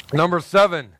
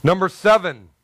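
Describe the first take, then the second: No difference in how they are said.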